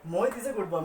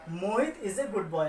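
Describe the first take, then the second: First: Said in the usual way. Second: Put-on slow, deliberate reading of Mohit is a good boy, each word set apart; slow example read. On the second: Shown as a demonstration. Teacher slowly dictates the example to students. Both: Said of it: "हमने यहाँ पे सिर्फ और सिर्फ मोहित के बारे में बताया".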